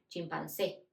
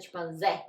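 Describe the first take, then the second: First: "chimpancé" with closed final E and an s sound; closed-ended "chimpancé", no z buzz; correct closed E. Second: "chimpancé" with a wide open final E and buzzing z; open-ended "chimpancé", the mistaken way; wrong Portuguese pronunciation. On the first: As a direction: say "chimpancé" as cheem-pahn-SEH, Spanish style. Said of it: "Siempre van a decir". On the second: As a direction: say "chimpancé" as sheem-pan-ZEH, Portuguese style. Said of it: "No es". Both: Shown as a demonstration.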